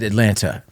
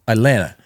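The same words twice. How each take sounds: First: The second T is clearly pronounced. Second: The second T is dropped, like Atlanna. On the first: The speaker calls it wrong. "you said Atlanta" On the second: The speaker calls it right. "it's spelled like A T L A N N A"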